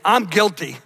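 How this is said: It is said earnestly, with strong conviction.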